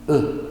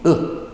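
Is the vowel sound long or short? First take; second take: short; short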